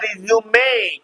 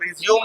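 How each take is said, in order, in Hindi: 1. अंतिम 'e' को 'ay' की तरह बोला जाता है। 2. अंतिम 'e' मौन है। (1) "इसको पढ़ते हैं" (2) "रिज्यूम नहीं पढ़ते हैं"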